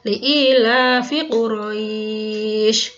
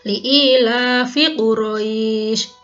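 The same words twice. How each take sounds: First: The long vowel is held for four beats. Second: The long vowel is held for two beats. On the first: "dua, empat harokat sekarang" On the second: "kalau yang satu alif"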